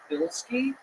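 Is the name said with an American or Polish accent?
American. It is said the American way.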